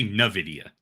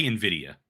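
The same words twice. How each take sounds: First: "nvidia" pronounced nuh-VID-ee-uh; mispronounced Nvidia. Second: "nvidia" pronounced in-VID-ee-uh; standard Nvidia pronunciation. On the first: Retold or imitated. Co-host imitates his partner's slip, "nvidia" as nuh-VID-ee-uh. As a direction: say "nvidia" with an opening "nuh" sound. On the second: Shown as a demonstration. Co-host asks how he says it, standard "nvidia" as in-VID-ee-uh. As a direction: say "nvidia" with an opening "in" sound. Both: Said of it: "I feel like you say nvidia".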